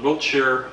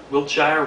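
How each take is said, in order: First: Wiltshire said as WILT-sher, ending in a plain -sher; trying out Wiltshire as WILT-sher; unsure Wiltshire. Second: Wiltshire said as WILT-shire, rhyming with fire; correcting Wiltshire to WILT-shire with a long i; second try at Wiltshire. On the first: A newcomer testing how to say Wiltshire, WILT-sher. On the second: A newcomer retrying Wiltshire, now WILT-shire like fire. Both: Real, not acted. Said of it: "I don't even know how to pronounce these streets".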